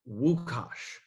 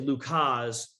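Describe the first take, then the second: First: The name begins with a W sound. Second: The name begins with an L sound. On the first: The speaker calls it right. "but it's pronounced Wukash" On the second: The speaker calls it wrong. "Everyone wants to say Lukas"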